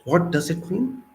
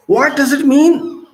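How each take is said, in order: First: Said in the usual way. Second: Pointed rising outcry; loud, high question. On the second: Real, not acted. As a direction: ask it much higher and louder, slowly. Rhetorical question repeated louder.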